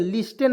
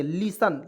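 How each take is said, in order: First: लिस्टेन with a sounded T; wrong pronunciation. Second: लिसन with no T; correct silent T. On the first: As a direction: misread लिस्टेन as "lis-ten". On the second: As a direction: say लिसन as "li-san". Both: Shown as a demonstration. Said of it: "लिस्टेन नहीं पढ़ेंगे".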